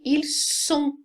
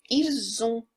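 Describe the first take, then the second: First: "ils sont" with a hard s, "il-son", no z; crisp s sound. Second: "ils ont" said as "il-zon", a clear z linking the words; liaison z sound. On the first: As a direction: keep the s of "ils sont" sharp and unvoiced. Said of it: "Som, som de S". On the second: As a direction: slide "ils ont" together with a z. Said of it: "vai ter o som de Z". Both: Shown as a demonstration.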